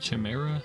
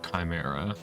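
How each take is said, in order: First: The word begins with a 'ch' sound. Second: The word begins with a hard 'k' sound. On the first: "Think it would be pronounced like Chi" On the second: "why is it pronounced Chimera?"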